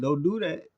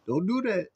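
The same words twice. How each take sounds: First: Hammed-up impression of Bird taunting; playful high taunt; mimicking Bird. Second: High playful imitation; mimicking Kareem. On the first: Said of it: "That man said". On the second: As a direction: ham up Kareem's warning. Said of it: "Kareem said".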